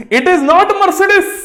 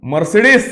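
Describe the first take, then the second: First: Mercedes said slow and higher with clear syllables; correct Mercedes. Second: Mercedes said mer-SAY-dees, wrongly. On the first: Teacher models the right pronunciation, slow and higher. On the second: Teacher shows students the wrong way to say it. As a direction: common mispronunciation of Mercedes. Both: Shown as a demonstration.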